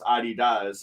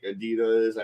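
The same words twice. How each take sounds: First: The word begins with the sound 'Adi'. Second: The word does not begin with 'Adi'. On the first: The speaker calls it right. "he went by Adi. ... that's why it's, it's pronounced Adidas" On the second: The speaker calls it wrong. "and not like Adidas"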